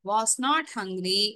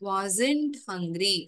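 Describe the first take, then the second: First: Was and not are said as two separate words. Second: Was and not are merged into one word. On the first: "was not இரண்டு வார்த்தைகளாக இருக்கும்" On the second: "ஒரே வார்த்தையாக நாம் எழுதும் பொழுது"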